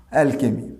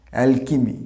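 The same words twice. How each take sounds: First: "অ্যালকেমি" with কে in the middle; wrong pronunciation. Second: "অ্যালকিমি" with কি in the middle; correct pronunciation. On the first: Teacher showing the mistake students make, plainly. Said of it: "না, এটা অ্যালকেমি নয়". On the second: Teacher giving students the right form, carefully. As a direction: say "অ্যালকিমি" with a কি sound. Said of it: "উচ্চারণটা হবে অ্যালকিমি". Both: Shown as a demonstration.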